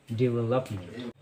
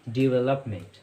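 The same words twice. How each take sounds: The two takes are said the same way.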